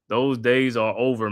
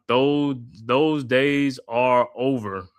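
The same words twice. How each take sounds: First: Said in the usual way. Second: Lightly voiced Samuel L. Jackson, drawn out; a mild imitation of Samuel L. Jackson; Samuel L. Jackson impression. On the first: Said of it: "repeats it in his own voice". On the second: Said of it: "in the voice of Samuel L. Jackson".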